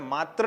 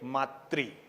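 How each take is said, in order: First: The last syllable is said as 'tra'. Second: The last syllable is said as 'tri'. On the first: The speaker calls it wrong. "इसलिए हमें मात्र नहीं बोलना है।" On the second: The speaker calls it right. "क्या बोलना चाहिए? मातृ।"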